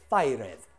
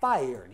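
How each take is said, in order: First: The -ed ending is a separate syllable. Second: The -ed ending adds no extra syllable. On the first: The speaker calls it wrong. "You are not fired. Please don't do that" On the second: The speaker calls it right. "you are fired"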